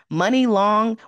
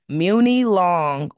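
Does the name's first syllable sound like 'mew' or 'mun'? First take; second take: mun; mew. First: The first syllable sounds like 'mun', as in money. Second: The first syllable sounds like 'mew', as in music. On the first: The speaker calls it wrong. "Money long, when it's spelled like that, just sounds crazy to me" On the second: The speaker calls it right. "She needs to change it. Muni long"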